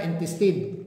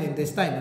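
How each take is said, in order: First: Intestine said in-TES-tin, final syllable short "tin"; intestine, the Kiwi way with a short i at the end; their pronunciation. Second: Intestine said in-TES-tine, final syllable rhyming with "line"; intestine, Filipino way ending in "tine"; my pronunciation. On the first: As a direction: intestine ending like "tin", not "tine". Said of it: "pero sa kanila". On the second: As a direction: intestine with a long "eye" sound in the last syllable. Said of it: "Sa akin". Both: Shown as a demonstration.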